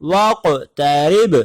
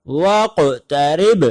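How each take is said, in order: First: Said in the usual way. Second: واقترب drawn out very slowly, bouncing on ق and ب; slow Quranic recitation of واقترب; recited with qalqala. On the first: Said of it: "قرآن کریم میں ہے". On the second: Shown as a demonstration. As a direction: recite واقترب slowly with two echoing stops. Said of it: "دو جگہ قلقلہ ہو رہا ہے".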